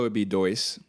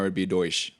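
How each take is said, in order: First: It is said in a São Paulo accent. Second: It is said in a Rio accent.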